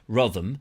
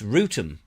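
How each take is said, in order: First: The first vowel sounds like 'oh'. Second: The first vowel sounds like 'oo'. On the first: The speaker calls it wrong. "It's not Rotham" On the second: The speaker calls it right. "it's Rootham"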